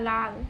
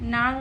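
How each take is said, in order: First: The word begins with an l sound. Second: The word begins with an n sound. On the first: The speaker calls it right. "না লাল" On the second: The speaker calls it wrong. "নাল না"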